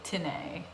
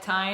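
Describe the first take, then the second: First: The name is said as two syllables. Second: The name is said as one syllable. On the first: The speaker calls it right. "but it's enunciated Tinney" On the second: The speaker calls it wrong. "in the previous interview I called him Mike Tyne"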